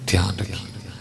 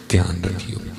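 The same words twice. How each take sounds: First: دھیان رکھیے breathed as a soft whisper. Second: Said in the usual way. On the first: Shown as a demonstration. Preacher whispers دھیان رکھیے to the congregation as a warning.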